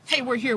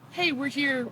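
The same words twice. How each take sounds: First: It is said loudly and aggressively. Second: It is said calmly and quietly. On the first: The group is challenging the others. The speaker calls it wrong. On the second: The group wants to talk things over. The speaker calls it right.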